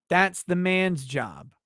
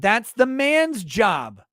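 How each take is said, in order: First: "That's" leads, "man's job" said slow and level; calm restatement of "That's the man's job"; plain repeat. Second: "man's" stretched and punched, higher and louder, slow; man's stressed slowly. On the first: Repeating the rule to chat, slow and level. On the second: Ranting to stream chat, slow pounding "man's". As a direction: hammer "man's". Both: Shown as a demonstration.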